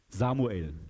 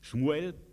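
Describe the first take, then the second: First: The name begins with an s sound. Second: The name begins with a sh sound.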